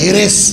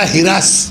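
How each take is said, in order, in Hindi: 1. r और s के बीच एक छोटा i सुनाई देता है। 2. r और s के बीच एक छोटा a सुनाई देता है। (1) "हम लोगों के देहात की तरफ जाइएगा ... ज़ेर तो रहेगा ही" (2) "लखनऊ जाइएगा तो ये हो जाएगा हिरस। ... लखनऊ में ज़बर के साथ"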